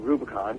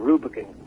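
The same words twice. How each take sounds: First: It is said with an American pronunciation. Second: It is said with a British pronunciation. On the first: This is how people from the United States say it. "But I say Rubicon because uh, I'm from the United States of America" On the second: This is how people from England say it. "my uh, guitar player and bass player from England say Rubicon"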